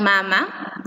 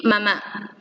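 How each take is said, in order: First: Mama stressed on the first MA; mama, drawn out, weight on the first syllable. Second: Mamá stressed on the final MÁ; mamá, weight on the second syllable; stress on last syllable. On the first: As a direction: say mama as MA-ma, slowly. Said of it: "del verbo mamar". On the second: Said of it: "un par de palabras nuevas". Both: Shown as a demonstration.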